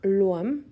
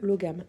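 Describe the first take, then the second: First: It is said the Modern Irish way, without the g. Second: It is said the French way, with a g sound. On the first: "la prononciation en irlandais moderne" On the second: "je le prononce à la française ici"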